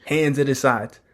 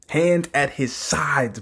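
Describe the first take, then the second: First: Said in the usual way. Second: "Hand at his sides" slowed right down; emphatic repeat. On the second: Real, not acted. Reviewer marvels at "Hand at his sides", slow emphatic repeat.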